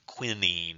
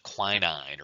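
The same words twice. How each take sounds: First: Quinine is pronounced the British way. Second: Quinine is pronounced the American way.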